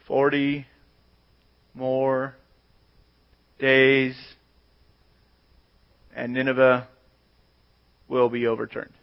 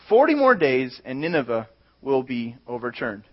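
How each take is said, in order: First: It is said flatly, without any conviction. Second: It is read with normal expression.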